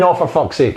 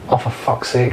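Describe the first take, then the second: First: It is screamed loudly. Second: It is said calmly, with mild annoyance.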